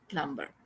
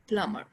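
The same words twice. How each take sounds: First: The b sound is pronounced. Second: The b sound is silent. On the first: The speaker calls it wrong. "Not प्लम्बर" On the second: The speaker calls it right. "This is प्लम्बर"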